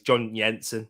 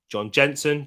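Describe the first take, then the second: First: The name is pronounced the Danish way. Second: The name is pronounced the English way. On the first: "when it's John Jensen actually, because he's Danish" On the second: "That's what they called him"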